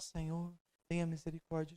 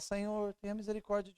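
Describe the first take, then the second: First: The voice is soft and low. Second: The voice is raised somewhat louder. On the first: "Então você começa a oração" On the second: "Elevando a sua voz cada vez mais. Da segunda vez você fala"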